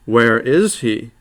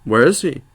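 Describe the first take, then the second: First: "Where is he?" slowed right down, each word laid out with weight on "is"; slow insistent repeat. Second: Said in the usual way. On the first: A narrator's reading. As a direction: drag it out so he can't dodge. Repeated after evasive answer.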